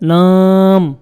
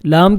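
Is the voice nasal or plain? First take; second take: nasal; plain. First: The word is said through the nose. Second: The word is said with a plain voice. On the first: The speaker calls it wrong. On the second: The speaker calls it right.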